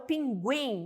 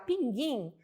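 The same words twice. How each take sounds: First: The u after g is pronounced. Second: The u after g is silent. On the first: The speaker calls it right. "não mudou a pronúncia" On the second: The speaker calls it wrong. "você não vai falar pinguim"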